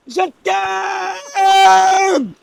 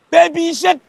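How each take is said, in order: First: Even higher full shout of love; shouting it again. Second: Proclaiming his love to the village, shouting; shouted love declaration. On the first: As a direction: belt it out, stretched long. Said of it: "Crie encore". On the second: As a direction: shout it for the whole world to hear. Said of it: "Laisse-moi crier ton nom". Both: Pretend.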